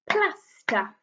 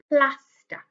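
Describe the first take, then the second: First: "Plaster" split into two beats, PLAS higher; clapped-out syllables. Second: Said in the usual way. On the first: Shown as a demonstration. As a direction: clap out "Plaster" as PLAS, then TER. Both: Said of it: "Let's clap it out".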